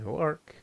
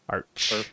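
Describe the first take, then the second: First: The word ends in a k sound. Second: The word ends in a ch sound. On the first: The speaker calls it wrong. "No Arc" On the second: The speaker calls it right. "Just like March"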